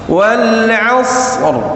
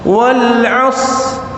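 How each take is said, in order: First: The final r sound is clearly pronounced. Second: The final r sound is left out. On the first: The speaker calls it right. "Harus kebaca" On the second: The speaker calls it wrong. "Ra-nya mana?"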